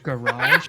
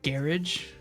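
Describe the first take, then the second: First: It is said with an American pronunciation. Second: It is said with a British pronunciation.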